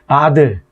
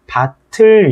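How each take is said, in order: First: The middle consonant is a plain d sound. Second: The middle consonant is an aspirated t sound. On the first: The speaker calls it wrong. "음절이 끝소리 규칙을 배운 학생 같은 경우는 바들" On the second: The speaker calls it right. "앞말의 받침이 이어져야 되는 거예요. 그러니까 얘는 발음이 밭을 이렇게 돼야 된다"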